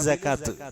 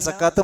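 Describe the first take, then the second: First: It is said with Arabic pronunciation. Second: It is said with Malayalam pronunciation. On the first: The speaker calls it right. "അറബിയിൽ സക്കാത്ത്" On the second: The speaker calls it wrong. "സക്കാത്ത് മലയാളത്തിലാണ്"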